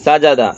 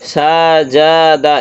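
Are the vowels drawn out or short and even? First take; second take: short and even; drawn out. First: The vowels are short, quick and even. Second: The vowels are drawn out and stretched. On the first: The speaker calls it right. "সমানভাবে একদম এইভাবেই যাবে" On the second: The speaker calls it wrong. "সাজাদা এরকম যেন না হয়"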